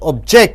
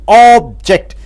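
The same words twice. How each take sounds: First: The stress is on the second syllable. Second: The stress is on the first syllable. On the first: It is an action, to refuse. "you stress on ject" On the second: It names a thing. "If you stress on ob, it becomes a noun"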